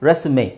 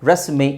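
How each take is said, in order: Both takes have the same delivery.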